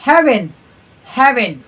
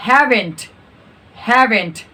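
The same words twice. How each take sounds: First: "haven't" as "haven", final t dropped; reduced HAVEN'T. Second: "haven't" with the final t sounded; full HAVEN'T. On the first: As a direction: end "haven't" on the n. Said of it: "haven't बोलना है". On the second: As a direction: finish "haven't" on a clear t. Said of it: "haven't बोलेंगे". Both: Shown as a demonstration.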